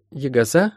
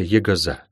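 First: Put-on rising, questioning girl's voice; puzzled echo. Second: Teasing nickname. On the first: Molly querying the healer's nickname, puzzled. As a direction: repeat the unknown word, wondering. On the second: Acted. Healer answering Molly's call, mildly teasing. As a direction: lightly chide the fidgety child.

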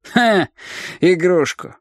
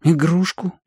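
First: High ха, then игрушку falling; scornful echo. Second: Игрушку rising high at the end; puzzled question. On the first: Leader mocks the boy's guess, scornful fall on игрушку. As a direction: throw игрушку back with a falling tune. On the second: Boy answers the leader's question, puzzled rise on игрушку. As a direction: ask игрушку as an innocent guess. Boy guesses what was brought. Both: A narrator's reading.

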